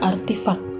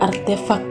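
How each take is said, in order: First: The second vowel is an i sound. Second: The second vowel is an e sound. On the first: This is the everyday nonstandard form. The speaker calls it wrong. "dan kata tidak bakunya artifak" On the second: This is the standard dictionary form. The speaker calls it right. "Kata baku yang kesebelas"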